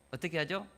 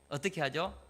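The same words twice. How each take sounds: The two takes are said the same way.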